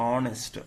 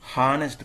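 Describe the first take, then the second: First: It starts with a vowel, no h. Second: It starts with an audible h sound. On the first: The speaker calls it right. "ఆ అనేది vowel sound" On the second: The speaker calls it wrong. "హానెస్ట్ కాదు"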